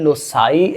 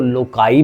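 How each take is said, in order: First: The middle consonant is an s sound. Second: The middle consonant is a k sound.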